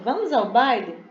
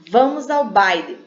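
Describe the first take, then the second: First: It is said with a questioning tune. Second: It is said firmly, like a command. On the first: The speaker is asking whether to go. "Ela está fazendo uma pergunta" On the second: The speaker is giving an order. "Tipo como se uma autoridade, né? É uma ordem"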